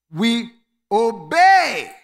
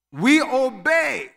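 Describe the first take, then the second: First: We obey with obey punched loud; stress on obey. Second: We obey, we punched loud and slow; stress on we. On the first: Pastor showing the congregation, obey hit loud. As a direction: land hard on obey. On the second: Pastor repeating it to church, we stressed. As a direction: lean hard on we. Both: Shown as a demonstration. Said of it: "Watch this".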